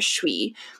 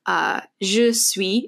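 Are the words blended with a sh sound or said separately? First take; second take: blended; separate. First: The words blend into one syllable with sh. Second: The two words are said separately and fully. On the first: "They link it together and say suis. So there's kind of a sh sound in there" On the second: "if you say, je suis, it means I am, but usually they don't say"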